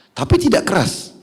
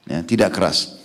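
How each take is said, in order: First: Emphatic, high tidak keras; raised emphatic. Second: Said in the usual way. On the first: Real, not acted. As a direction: lift the voice sharply on tidak.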